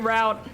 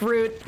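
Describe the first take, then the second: First: The word does not sound like 'root'. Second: The word sounds like 'root'. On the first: This is how the speaker normally says it. "I usually say route" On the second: This is not how the speaker normally says it. "pronouncing it like root"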